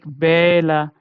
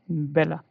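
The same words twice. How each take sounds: First: The first vowel is drawn out long. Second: The first vowel is short and quick. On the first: The speaker calls it wrong. "not like bella. No, that's not right again" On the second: The speaker calls it right. "So here this will be short"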